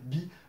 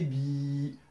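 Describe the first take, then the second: First: The vowel is held for one short beat. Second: The vowel is held for two beats. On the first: "comme on a vu dans la leçon précédente" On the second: "d'allonger euh, le temps"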